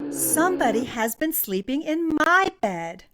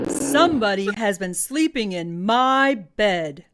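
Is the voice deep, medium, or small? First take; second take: medium; deep. First: It is said in a medium, grumbling voice. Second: It is said in a big, booming voice.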